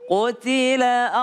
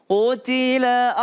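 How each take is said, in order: Both takes have the same delivery.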